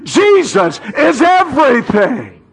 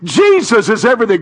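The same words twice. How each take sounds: First: Shouted, high, with the whole church; rousing echo from the pulpit; call-and-response shout. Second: Loud, high, fast preaching call; fired-up proclamation; preaching shout. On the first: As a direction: lead the congregation in a loud cry. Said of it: "Come on, church, say it with me". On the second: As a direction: belt it out to the church. Preacher leads congregation call. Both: Real, not acted.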